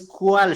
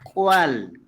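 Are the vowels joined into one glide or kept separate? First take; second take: joined; separate. First: The vowels are joined into one gliding sound. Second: The vowels are kept apart, not joined together. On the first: The speaker calls it wrong. "no es cuál" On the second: The speaker calls it right. "sino recuerden cuál"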